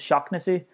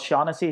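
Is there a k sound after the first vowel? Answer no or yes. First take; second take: yes; no. First: The name is said with a k sound. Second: The name is said without a k sound. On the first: This is how the name is said in Ireland. The speaker calls it right. "his actual name here in Ireland is Shocknessy" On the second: This is how the name is said in America. The speaker calls it wrong. "he's pronouncing his name wrong"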